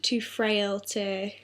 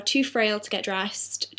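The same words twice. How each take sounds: First: "too frail to" said much slower and softer, each word weighted; drawn-out quiet emphasis on "too frail to"; slow stressed repeat. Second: Said in the usual way. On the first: Shown as a demonstration. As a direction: lean on "too" and stretch the phrase.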